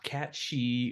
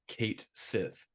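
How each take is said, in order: First: It sounds like 'Cat' followed by 'She'. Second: It sounds like 'Kate' followed by 'Sith'. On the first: The speaker calls it wrong. "not Cat She or any of that stuff" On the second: The speaker calls it right. "his name is pronounced Kate Sith"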